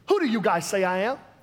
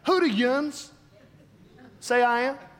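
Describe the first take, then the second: First: It is said in a West Coast accent. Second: It is said in a Pennsylvania accent.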